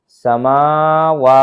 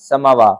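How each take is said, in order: First: The first vowel is drawn out long. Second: The first vowel is cut short, said hastily. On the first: The speaker calls it right. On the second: The speaker calls it wrong.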